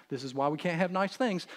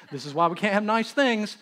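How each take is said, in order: First: Said in the usual way. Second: Louder, higher, mock exasperation; hammed-up fed-up father; exasperated repeat. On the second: Father repeating his complaint to his wife, louder and exasperated.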